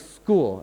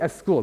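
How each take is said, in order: First: The word starts directly with its first consonants. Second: An extra vowel sound comes before the word. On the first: The speaker calls it right. "And I say, "No, school,"" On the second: The speaker calls it wrong. "they'll say "es school,""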